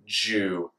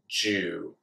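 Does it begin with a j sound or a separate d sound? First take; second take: j; j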